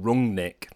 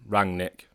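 First: The first syllable sounds like 'rung'. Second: The first syllable sounds like 'rang'. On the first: "I've rung Nick" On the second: "I've rang Nick"

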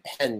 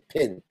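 First: The vowel is the open 'eh' sound. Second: The vowel is raised to an 'ih' sound. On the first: "instead of saying pen" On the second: "you say pin"

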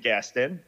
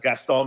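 First: The name is said with an English pronunciation. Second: The name is said with a French pronunciation. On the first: This is the form the name took in New York. "that's what I've been known as ever since" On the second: This is the original form of the name. "people don't speak as much French in New York as they do in Egypt and in Paris"

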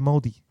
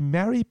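First: It is said with a New Zealand accent. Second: It is said with an American accent.

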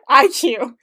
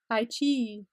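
First: The name ends with a 'cue' sound. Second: The name ends with a 'chee' sound. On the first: The speaker calls it wrong. "I keep calling it IQ because I don't know" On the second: The speaker calls it right. "It's like I chi and then an extra e at the end"

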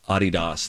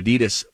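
First: The name is said the German way. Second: The name is said the American way. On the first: This is how the family pronounces its own name. "It's a German family, Adidas. That's how you pronounce the name" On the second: This is how Americans commonly say the name. "We Americans decided, nah, we'll change it and we'll make it Adidas"

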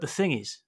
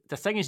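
First: It is spoken in the speaker's ordinary accent. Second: It is spoken in an attempted Australian accent.

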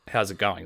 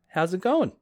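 First: It sounds perfunctory, like an empty pleasantry. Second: It sounds sincere, like a genuine question. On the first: The question is only a pleasantry. "the way everybody else on planet Earth says it" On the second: The asker really wants to know the answer. "It feels like a legitimate question"

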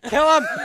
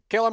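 First: The voice sounds hurried and panicked. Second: The voice sounds calm and confident. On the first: The shooters are anxious after missing. "bad shooting brings you guys to like panicking" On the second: The shooters feel sure of themselves. "It's all confident"

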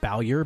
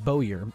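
First: The first syllable rhymes with 'cow'. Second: The first syllable rhymes with 'go'. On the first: The speaker calls it wrong. "I always pronounced it Bowyer because it's like Bowser but with a Y" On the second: The speaker calls it right. "But his name is Bowyer, and he's a bow"

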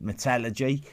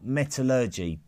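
First: It is said the British way. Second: It is said the American way. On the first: "We say metallurgy" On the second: "or metallurgy, if you're over the other side of the Atlantic"

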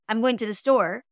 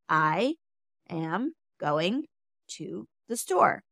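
First: The words are rushed together quickly. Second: Each word is spoken slowly and separately. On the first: "rushing through it" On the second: "take your time with each word"

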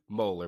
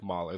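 First: The first vowel sounds like the 'o' in molar. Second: The first vowel sounds like the 'o' in Molly. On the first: The speaker calls it wrong. "Most people say Moeller" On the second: The speaker calls it right. "but it's actually like Moeller"

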